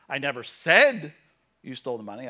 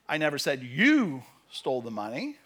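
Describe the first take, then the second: First: The word "said" carries the main stress. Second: The word "you" carries the main stress. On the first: It was written, not spoken aloud. "I posted it on Facebook, but I never said you stole the money" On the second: Someone else stole it. "Somebody else stole it"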